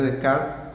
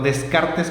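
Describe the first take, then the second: First: The name is said with French pronunciation. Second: The name is said with Spanish letter sounds. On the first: This is how the name is really pronounced. "como se pronuncia" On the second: This is how people read the name in books. "como lo hemos leído en libros en general"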